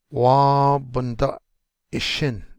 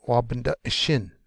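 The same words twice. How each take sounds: First: "Wa bunda ishin" with loud, long "Wa" and a break before "ishin"; drawn-out model. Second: Said in the usual way. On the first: Shown as a demonstration. Teacher introducing a word to learners, slow and broken up. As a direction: hold "Wa", then separate "ishin".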